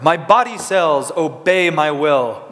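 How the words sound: It is said in a powerful, heroic voice. "like you were a superhero"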